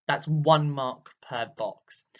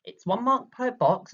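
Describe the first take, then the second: First: That's one mark per box said slowly, each word weighed; slow, deliberate stress on "one"; slow emphasis. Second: "mark" punched higher and louder; raised, emphatic "one mark per box"; emphatic stress. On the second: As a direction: hit "mark" hard and high. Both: Shown as a demonstration. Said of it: "think about the amount you are writing for one mark".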